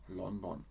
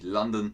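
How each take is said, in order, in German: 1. Der Name wird deutsch ausgesprochen. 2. Der Name wird englisch ausgesprochen. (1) "aber in Deutschland sagt man London" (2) "aber eigentlich heißt es natürlich London"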